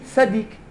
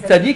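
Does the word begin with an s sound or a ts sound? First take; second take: s sound; ts sound. First: The word begins with a plain s sound. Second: The word begins with a ts sound. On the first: "mais sadik" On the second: "tu le prononces plus tzaddik"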